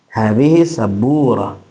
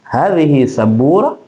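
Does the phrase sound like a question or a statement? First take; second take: statement; question. First: It is said with a plain informing intonation. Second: It is said with a questioning intonation. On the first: The speaker is telling what the object is. "intonasi hanya se sebagai informasi" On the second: The speaker is asking what the object is. "ketika intonasinya mengantarkan itu adalah pertanyaan"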